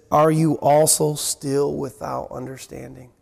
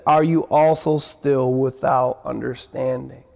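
First: Lower, weary, disappointed rebuke; rereading Jesus's rebuke to the disciples, lower and wearier; frustrated Jesus. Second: Lower, heavy, disappointed rebuke; frustrated Jesus. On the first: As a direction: sigh it out as a tired reproach. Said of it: "I could just hear the tone of the voice of the Lord there". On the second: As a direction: let the disappointment weigh on each word. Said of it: "Can you hear in there the tone of the voice of Jesus?". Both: Retold or imitated.

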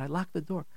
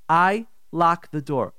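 First: Soft, groggy reply; acted half-awake wife. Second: Slow, deliberate "I locked the door"; firm insistence. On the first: Wife just woken, answering husband half awake. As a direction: answer softly, barely awake. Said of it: "She's, like, half awake". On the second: Acted. Wife denying husband's accusation, slow and emphatic. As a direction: space out "I locked the door" word by word.

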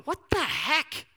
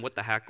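First: Drawn-out, higher, disbelieving cry to God; bewildered exclamation. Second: Quiet, low, humble words to God; hushed prayer. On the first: Retold or imitated. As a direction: ask it slowly as if baffled. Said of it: "I just go". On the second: Shown as a demonstration. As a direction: murmur the question gently in prayer.

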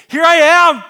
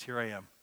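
First: Huge, high-pitched eager yell; exclamatory shout. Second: Said in the usual way. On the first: Acted. Isaiah answering the Trinity's call, shouting eagerly. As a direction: cry it out at full volume, high. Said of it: "exclamation mark". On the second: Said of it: "try and capture the tone".

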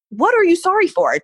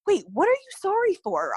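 First: Loud, high, frantic demand; retold exasperated outburst, pitched way up; out of her mind. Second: High-pitched, bewildered questioning; retold confusion, pitched well up; confused. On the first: Frantic patient to the sonogram tech, loud and exasperated. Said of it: "Trying not to be rude to this lady, but I was so just out of my mind". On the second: Patient asks the tech why she's sorry, confused. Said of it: "I was so confused".

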